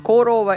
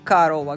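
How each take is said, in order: First: The first vowel is a full, clear o. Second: The first vowel is reduced to an a. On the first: This is how the word is written. "пишем Корова" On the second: This is how the word is actually spoken. "Говорим Карова"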